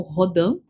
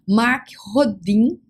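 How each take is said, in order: First: Rodin said as "ho-DAN", nasal French ending; French-style pronunciation. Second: Rodin said as "ho-DEEN"; spelling pronunciation. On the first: Presenter offering viewers the alternative, Rodin pronounced "ho-DAN". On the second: Presenter naming a mathematician to viewers, Rodin pronounced "ho-DEEN". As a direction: say Rodin as written, ending in a "deen" sound. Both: Shown as a demonstration. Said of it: "como queira pronunciar".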